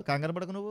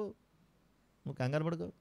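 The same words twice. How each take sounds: First: Said in the usual way. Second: Softer, slow reassuring repeat; god reassuring softly. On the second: Retold or imitated. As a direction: soothe him gently and slowly, as God comforting John. (మృదువుగా, నెమ్మదిగా ధైర్యం చెప్పడం) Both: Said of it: "అప్పుడు పంపించాడట".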